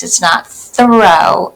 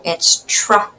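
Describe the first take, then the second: First: Slow contrast, throw with th; wrong sound. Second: Tro said with a plain t, softly; correct nonsense word. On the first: Teacher contrasting throw with the nonsense word tro. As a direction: throw said slowly with a th. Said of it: "That's nonsense". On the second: Teacher giving the right nonsense word tro. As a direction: tro with a t, not th. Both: Shown as a demonstration.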